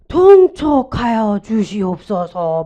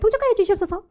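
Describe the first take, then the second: First: It is said slowly and drawn out. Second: It is said quickly and lightly. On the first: It is how the plea is really made. The speaker calls it right. "실제로는 어떻게 해요?" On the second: It sounds like a chattering servant. The speaker calls it wrong. "촉새 같은 내시가"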